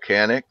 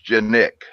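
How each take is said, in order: First: The name begins with a 'k' sound. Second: The name begins with a 'j' sound. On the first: The speaker calls it wrong. "You hear it called Canic" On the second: The speaker calls it right. "that C comes into a J"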